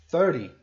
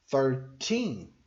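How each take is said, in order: First: Thirty hit hard and loud on the first syllable; stress on THIR. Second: Put-on Thirteen with the weight on the final teen; stress on TEEN. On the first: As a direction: punch the start of Thirty. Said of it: "o foco tá no começo". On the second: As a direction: lean on the end of Thirteen. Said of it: "o foco tá no teen". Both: Shown as a demonstration.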